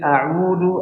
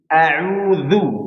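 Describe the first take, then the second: First: The middle consonant is a plain d sound. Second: The middle consonant is a soft dh sound. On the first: The speaker calls it wrong. "jangan sampai dibaca a'udu" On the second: The speaker calls it right. "tapi a'udzu"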